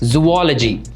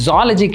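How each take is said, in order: First: It is said with four syllables, 'zoo-wah-la-jee'. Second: It is said with three syllables, 'zah-la-jee'. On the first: The speaker calls it right. "It is ஜூவாலஜி" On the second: The speaker calls it wrong. "அது ஜாலஜி கிடையாது"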